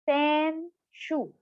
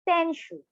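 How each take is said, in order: First: It is said slowly, syllable by syllable. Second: It is said at normal speed.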